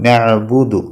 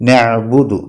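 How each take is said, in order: Both takes have the same delivery.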